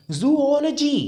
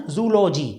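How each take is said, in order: First: "जूलॉजी" as zoo-OL-uh-jee; correct pronunciation. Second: "जूलॉजी" in three syllables, zoo-LO-jee; mispronunciation. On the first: Teacher correcting learners, "जूलॉजी" as zoo-OL-uh-jee. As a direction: break "जूलॉजी" after zoo, then OL-uh-jee. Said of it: "इसको बोलेंगे हम". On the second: Teacher repeating learners' version, "जूलॉजी" as zoo-LO-jee. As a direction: say "जूलॉजी" with no second o after zoo. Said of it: "जैसे आप बोलेंगे शायद". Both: Shown as a demonstration.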